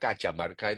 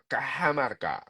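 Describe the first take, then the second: First: The name is read as it is spelled. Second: The name is read with Spanish pronunciation.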